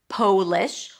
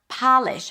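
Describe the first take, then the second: First: The first vowel is a long O sound. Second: The first vowel is a short O sound. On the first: It refers to the nationality. "the O is pronounced with a long O sound" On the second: It means to make something shiny. "I need to polish the glasses"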